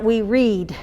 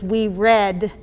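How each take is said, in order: First: "read" said as reed, slow and falling; present tense read. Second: "read" said as red, past tense. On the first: Teacher contrasting "read" as reed with red. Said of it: "which window does we read". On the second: Teacher modelling "read" as red for second graders. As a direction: say "read" like the colour red, as in finished. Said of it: "not we read". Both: Shown as a demonstration.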